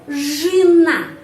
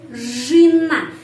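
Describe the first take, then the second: Both takes have the same delivery.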